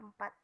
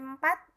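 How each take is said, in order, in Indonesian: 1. Vokal pertama adalah bunyi pepet yang pendek. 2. Vokal pertama adalah bunyi e terbuka. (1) "yang seharusnya atau yang sebenarnya adalah" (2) "kesalahan pertama dalam contoh pengucapan E empat"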